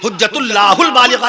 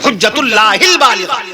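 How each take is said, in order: First: The linking syllable has an 'u' vowel. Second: The linking syllable has an 'i' vowel. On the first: The speaker calls it wrong. "नहीं" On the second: The speaker calls it right. "जैसे हुज्जतुल्लाहिल बालिगा"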